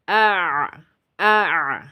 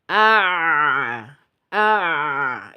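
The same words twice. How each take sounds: First: The sound flows only halfway, then stops. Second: The sound flows fully and is held long. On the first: The speaker calls it right. "tapi separuh aja" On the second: The speaker calls it wrong. "bukan begini. ini terlalu panjang"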